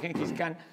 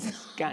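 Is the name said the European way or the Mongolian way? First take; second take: European; Mongolian. First: The name is said the European way. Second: The name is said the Mongolian way. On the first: This is how Europeans came to say it. "Los europeos terminaron diciéndole Gengis Khan" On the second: This is how it is said in its original language. "creo que en mongol se pronuncia Chingis"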